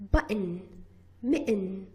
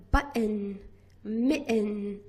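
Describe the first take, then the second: First: Button and mitten with a glottal catch for the t; glottal stop words. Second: Said in the usual way. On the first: Shown as a demonstration. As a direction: say button as but-n with a throat stop. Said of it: "we produce a glottal stop and we say it". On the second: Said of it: "instead of pronouncing button and".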